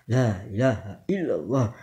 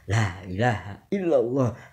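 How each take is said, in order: Both takes have the same delivery.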